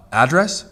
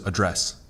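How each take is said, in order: First: "address" as AD-dress; stress on first syllable. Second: "address" as uh-DRESS; stress on second syllable. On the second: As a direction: hit DRESS in "address", first vowel weak. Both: Shown as a demonstration. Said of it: "you change the emphasis on the syllable".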